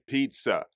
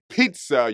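First: The p is held back with a soft release. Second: The p comes out with a hard puff of air. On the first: The speaker calls it right. "you've got to really control it" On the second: The speaker calls it wrong. "instead of saying pizza"

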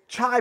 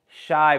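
First: The name begins with a 'ch' sound. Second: The name begins with an 'sh' sound. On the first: The speaker calls it wrong. "nah, man, you're saying it wrong" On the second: The speaker calls it right. "It's Shy Battery"

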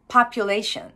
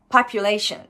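Both takes have the same delivery.

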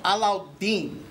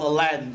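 First: The name is said in its original form. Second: The name is said in an Americanized form. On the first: This is the true family pronunciation. The speaker calls it right. "my real name is pronounced Alauddin" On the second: This is how others have mispronounced it. The speaker calls it wrong. "Disney messed up the name, it's now called Aladdin"

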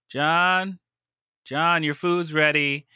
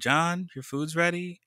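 First: It is said slightly louder. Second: It is said quietly.

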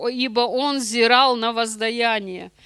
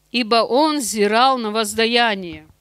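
The two takes are said the same way.

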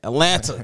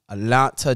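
First: The word is said with a marked local accent. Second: The word is said in a plain, neutral way.

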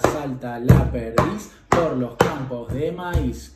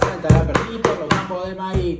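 First: The phrase is spoken at a medium pace. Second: The phrase is spoken at a fast pace. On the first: "Más rápido" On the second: "Más rápido"

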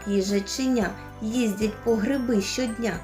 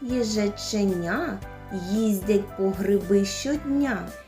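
First: The phrase is spoken very fast. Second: The phrase is spoken a bit faster. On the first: "А зможете ще швидше?" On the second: "трішечки швидше"

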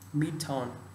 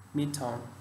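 The two takes are said the same way.

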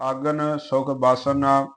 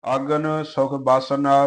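No difference in how they are said.

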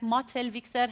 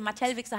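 First: The word is said with an imitated foreign-sounding vowel. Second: The word is said with a plain standard pronunciation. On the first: This is how the mother actually said it. "Mottel-Wichser hat sie gesagt" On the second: This is not how it was actually said. "Mattel-Wichser hat sie nicht gesagt"

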